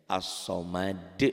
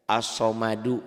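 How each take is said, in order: First: As-somad slow, final d bounced; qalqalah stop. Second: As-somadu read through, final -du fully voiced; full ending. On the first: Teacher shows the reading when one stops, bouncing qalqalah. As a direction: stop on the d of "As-somad" with a short echo. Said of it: "Jika kita berhenti membacanya". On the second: Teacher quizzes on the unstopped word, full ending. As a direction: sound the last u of "As-somadu". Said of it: "Qalqalah bukan?". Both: Shown as a demonstration.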